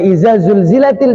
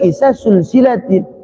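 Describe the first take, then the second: First: The consonants are said with a z sound. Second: The consonants are said with an s sound. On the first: "kita baca" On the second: "dia baca ... karena memang tidak bisa ngomong za"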